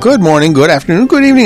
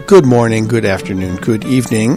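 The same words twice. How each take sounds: First: The greeting is said quickly and excitedly. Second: The greeting is said slowly and calmly. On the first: "I can't control my enthusiasm here today" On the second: "So I'll just say slowly"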